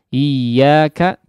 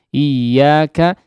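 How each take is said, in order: Both takes have the same delivery.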